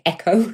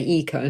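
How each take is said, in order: First: The first vowel sounds like the vowel in egg. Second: The first vowel sounds like the vowel in easy. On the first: The speaker calls it wrong. "they try to say echo" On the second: The speaker calls it right. "I always correct them to say eco"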